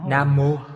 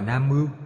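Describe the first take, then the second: First: The second syllable is pronounced 'mo'. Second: The second syllable is pronounced 'mau'. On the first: This is the modern reading. "Người bây giờ đọc cái gì? Nam Mô" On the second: This is the ancient reading. "người thời Đường đọc là Nam Mưu"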